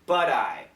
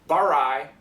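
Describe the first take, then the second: First: The middle consonant sounds like a quick D. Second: The middle consonant sounds like an R. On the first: The speaker calls it right. "it's budai" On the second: The speaker calls it wrong. "if it were an R, this is the sound"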